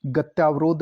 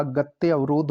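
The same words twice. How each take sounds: First: गत्यावरोध joined with a long yaa; mispronounced compound. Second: Said in the usual way. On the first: Shown as a demonstration. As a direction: say गत्यावरोध as "gatyaa-varodh". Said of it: "गत्यावरोध नहीं होता". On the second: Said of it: "गत्य अवरोध होता है".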